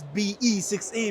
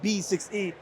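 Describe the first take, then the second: First: The letters B and E come before six. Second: Only the letter B comes before six. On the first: The speaker calls it wrong. "it's not called as B E six E" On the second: The speaker calls it right. "It's called B six E"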